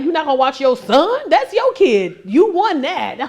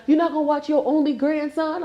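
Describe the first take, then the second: First: Loud, higher retort with "son" punched; indignant comeback. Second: Mock guilt-trip. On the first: Retold or imitated. Grandma turning son's guilt trip on him, mock indignant retort. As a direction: throw it back in mock indignation, hitting "son". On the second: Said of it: "Try to make me feel bad".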